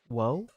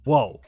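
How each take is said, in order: First: It rises like a question, with less energy. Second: It is an energetic exclamation, not rising.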